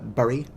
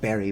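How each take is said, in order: First: The vowel follows the u spelling, like burry. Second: The vowel sounds like in the word berry. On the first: The speaker calls it wrong. "there's a lot of words I mispronounce. Usually on purpose. Like I pronounce" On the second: The speaker calls it right. "Sure, it's pronounced Berry"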